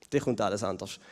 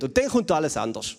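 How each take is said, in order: First: Quiet, foreboding afterthought; hushed, ominous echo. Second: Said in the usual way. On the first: Shown as a demonstration. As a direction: drop much softer and lower on the repeat.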